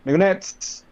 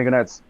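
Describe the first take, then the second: First: Higher, sharp call to the group. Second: Said in the usual way. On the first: Acted. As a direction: call "Migonettes" out as a summons. Nurse calls out to the Migonettes.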